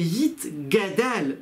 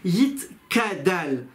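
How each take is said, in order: First: The middle consonant is a g sound. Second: The middle consonant is a k sound. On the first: The speaker calls it right. "C'est Yit Gadal" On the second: The speaker calls it wrong. "il ne faut pas dire Yit Kadal"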